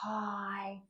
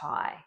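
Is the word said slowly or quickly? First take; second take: slowly; quickly. First: The word is said slowly, with the parts drawn apart. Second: The word is said quickly, with the parts run together. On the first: "We always start slow" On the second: "gradually increase our speed"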